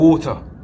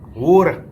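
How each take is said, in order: First: It is said with an English accent. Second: It is said with an American accent. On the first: "England they'll say water, no, or water" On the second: "In America they'll say water"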